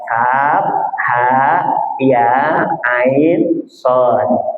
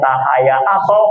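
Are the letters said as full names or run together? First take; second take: full names; run together. First: Each letter is said as its full name. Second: The last letters are run together and clipped. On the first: The speaker calls it right. "mafatihus suwar itu bacanya" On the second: The speaker calls it wrong. "akhirnya kaf ha ya aso"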